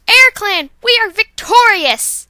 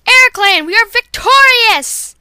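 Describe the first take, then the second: First: Loud, high second take of the victory cry; same victory shout, a bit less slowed. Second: Loud, high victory cry, slowed on victorious; rally the clan after a win; a triumphant warrior cat shouting victory. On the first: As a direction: shout the win to the whole clan. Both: Acted.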